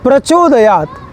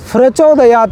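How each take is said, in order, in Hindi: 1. यह शब्द सादे 'p' ध्वनि से शुरू होता है। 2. यह शब्द 'f' ध्वनि से शुरू होता है। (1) "प का ही होगा" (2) "नहीं, यहाँ फ का उच्चारण नहीं"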